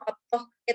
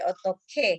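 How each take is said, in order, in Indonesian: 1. Bunyi h dan k diucapkan terpisah, tidak beraspirasi. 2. Bunyi h dan k menyatu menjadi k beraspirasi.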